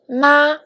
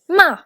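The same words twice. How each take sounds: First: The pitch stays high and level. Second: The pitch falls sharply from high. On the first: "for the first tone" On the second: "for the fourth tone"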